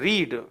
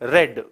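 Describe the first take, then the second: First: The vowel is long, rhyming with 'need'. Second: The vowel is short, rhyming with 'bed'. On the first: It is the present form. "First form में इसका उच्चारण होता है रीड" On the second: It is the past form. "Second और third form में इसको हम पढ़ते हैं रेड"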